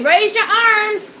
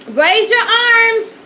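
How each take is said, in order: First: Parent's command. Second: Put-on higher, louder and slow, like calling to a child; parent command. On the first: Retold or imitated. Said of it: "I tell my kids that". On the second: Mom telling her choking kids to raise their arms, loud command. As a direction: bark the order at a choking kid. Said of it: "how many of y'all told y'all kids this?".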